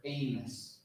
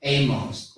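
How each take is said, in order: First: Amos slowly as AY-muss; second pronunciation. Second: Amos slowly as AY-mohss; first pronunciation. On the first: Showing listeners both options, Amos slowly as AY-muss. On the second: Showing listeners both options, Amos slowly as AY-mohss. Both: Shown as a demonstration. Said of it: "sounds just like this".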